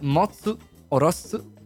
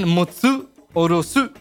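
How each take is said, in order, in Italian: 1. Le parole si dicono piatte, senza accento. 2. Le parole hanno un forte accento sulla sillaba. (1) "senza accenti e deve essere è molto piatto"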